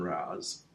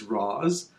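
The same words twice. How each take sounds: First: Raz with a short flat a, rhyming with jazz; preferred nickname pronunciation. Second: Raz with the long open vowel, "Rahz"; real pronunciation. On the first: Host giving his friend's preferred name, Raz rhyming with jazz. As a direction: say Raz like "Rad" with a z. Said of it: "likes people to call him". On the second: Host giving co-host his friend's real name, Raz said "Rahz". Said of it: "actually you pronounced his name right". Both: Shown as a demonstration.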